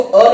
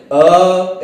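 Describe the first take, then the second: First: Short अ, said quickly as one beat. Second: अ held long, three beats, very slow; drawn-out pluta अ. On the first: Teacher shows students the wrong way, a quick short अ. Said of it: "इसको अ नहीं बोले". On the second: Teacher shows students pluta, अ held very long. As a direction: stretch अ out like a Sanskrit mantra. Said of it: "अ ऐसे". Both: Shown as a demonstration.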